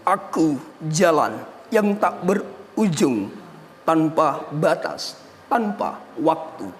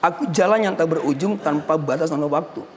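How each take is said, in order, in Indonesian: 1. Baris itu dibaca dengan cara puitis, penuh ekspresi. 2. Baris itu dibaca dengan cara biasa, sewajarnya. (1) "Lebih ke puitis-puitis sedikitlah" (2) "Kalau kita cuma hanya seperti biasa"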